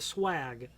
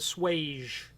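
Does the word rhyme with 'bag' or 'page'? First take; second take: bag; page. First: The word rhymes with bag. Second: The word rhymes with page. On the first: This is the speaker's own pronunciation. "how I pronounce it" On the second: This is how some other people pronounce it. "Some people call it the swage"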